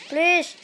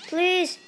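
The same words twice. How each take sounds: The two takes are said the same way.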